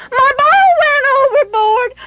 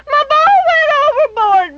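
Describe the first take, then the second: First: Put-on high wailing child's voice, rising at the end; a small boy wailing about his lost ball, pitch lifting; crying little boy. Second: Put-on high wailing child's voice, falling at the end; the boy repeats his wail, sinking down at the end; crying little boy. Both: A narrator's reading. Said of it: "Benny cried".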